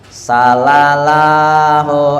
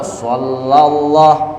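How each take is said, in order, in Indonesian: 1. S pertama itu bunyi s yang ringan dan biasa. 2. S pertama itu bunyi s yang berat dan tebal. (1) "kita baca sin sallallahu ala Muhammad, nah itu salah" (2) "kalau betul aja hurufnya sallallahu"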